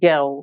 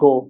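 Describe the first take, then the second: First: It is said in a British accent. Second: It is said in a Bengali accent. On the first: "এইটা যখন ব্রিটিশরা বলবে তখন গ্যাও" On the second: "আর আমরা বললে কি হবে?"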